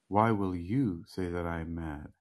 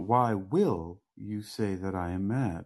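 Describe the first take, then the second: First: The word 'you' carries the main stress. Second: The word 'will' carries the main stress. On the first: The speaker calls it right. "it's better that you inflect the way that you already did" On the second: The speaker calls it wrong. "So you have to put the emphasis on that word"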